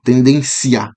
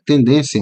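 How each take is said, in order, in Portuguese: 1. O 'i' é forte e separa o 'ia' em duas sílabas. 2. O 'ia' final se junta e forma uma só sílaba. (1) "a pronúncia forte aí do, do I" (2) "Quando a gente está conversando normal"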